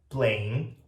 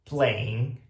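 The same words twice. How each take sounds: The two takes are said the same way.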